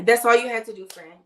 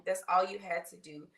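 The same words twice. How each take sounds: First: Louder, punching all; emphatic reassurance. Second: Said in the usual way. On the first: Real, not acted. Host reassures LaShante about the bio link, emphatic. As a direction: tell her it was that easy. Answering a viewer in chat.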